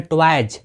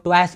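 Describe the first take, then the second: First: ट्वाइज ending in a voiced j sound; correct j ending. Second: ट्वाइस ending in a hissed s; common misreading. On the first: Teacher showing plural of toy, correct j ending. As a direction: say ट्वाइज with j closing the word. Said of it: "इसको हम पढ़ते हैं ट्वाइज". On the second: Teacher quoting learners' mistake, common misreading. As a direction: say ट्वाइस with a voiceless s at the end. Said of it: "कितने लोग ट्वाइस पढ़ते हैं". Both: Shown as a demonstration.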